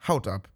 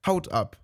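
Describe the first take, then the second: First: Lower, astonished "Haut ab" repeated back; the mouse echoes "Haut ab" in disbelief; "Haut ab" called out in mild surprise; exclaimed. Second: Said dry and curt, falling; "Haut ab", short, dry, dropping at the end. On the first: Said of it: "rief die Maus". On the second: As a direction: toss off "Haut ab" dryly with a flat fall. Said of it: "sagte die Katze ganz trocken". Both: A narrator's reading.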